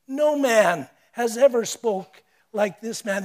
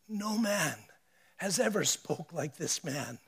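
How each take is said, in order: First: Louder, firm declaration; louder repeat. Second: Softer, hushed awe; awed hush. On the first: Officers insisting before the priests, louder. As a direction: proclaim it with force. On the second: Officers admitting to the priests, softer and hushed. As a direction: let it fall to a hushed marvel. Quoted officers, soft then repeated. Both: Acted.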